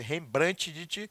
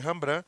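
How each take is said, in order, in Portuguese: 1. O nome é pronunciado como está escrito. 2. O nome é dito do jeito que se fala. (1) "se escreve Rembrandt" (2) "se lê Rembrandt"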